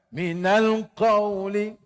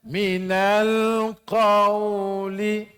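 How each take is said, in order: First: It is recited fast. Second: It is recited slowly.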